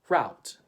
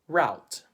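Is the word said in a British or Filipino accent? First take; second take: Filipino; Filipino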